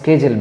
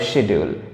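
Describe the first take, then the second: First: The word begins with an 'sk' sound. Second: The word begins with an 'sh' sound. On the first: "তোমরা স্কেজুলও বলতে পারো" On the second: "আবার বলতে পারো শিডিউল"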